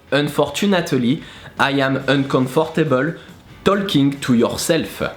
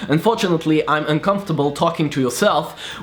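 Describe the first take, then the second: First: It is said with a French accent, every letter pronounced. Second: It is said with a standard English accent. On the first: "would go as" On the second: "a sentence like"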